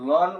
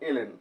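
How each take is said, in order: First: It is said as the single word lon. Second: It is said as the letters el en. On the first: The speaker calls it wrong. "এটা বললে ভুল হবে" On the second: The speaker calls it right. "আমরা বলতে পারবো এলএন"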